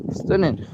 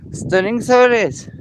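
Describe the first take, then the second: First: Said in the usual way. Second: Loud, high delighted exclaim; excited. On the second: Real, not acted. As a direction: burst out in delight. Admiring the view again.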